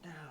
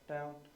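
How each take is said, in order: First: It is said sharply and forcefully. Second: It is said calmly, matter of fact.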